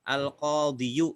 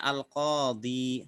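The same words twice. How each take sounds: First: Al-qadiyu with the hidden yu sounded; Al-qadiyu, u ending spoken out after the i; underlying full form. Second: Al-qadi ending on a long silent-ya ee; al-qadi, closing on a held i; read form. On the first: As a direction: say Al-qadiyu with an audible final yu. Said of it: "tapi tidak ditampakkan". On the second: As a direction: say al-qadi with no u after the final i. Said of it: "maka bacanya al-qadi". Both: Shown as a demonstration.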